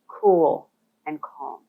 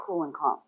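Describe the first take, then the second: First: "cool and calm" drawn out very slowly, each word stretched. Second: Said in the usual way. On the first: Shown as a demonstration. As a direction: let "cool and calm" unfold slowly, unhurried. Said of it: "slow things down and appear". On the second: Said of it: "slow things down".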